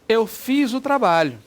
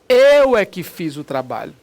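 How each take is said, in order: First: It is said as a plain, neutral statement. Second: It is said with strong emphasis on the subject.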